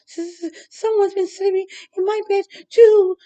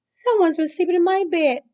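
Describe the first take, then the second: First: It is stuttered nervously in Baby Bear's voice. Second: It is wailed tearfully in Mama Bear's voice.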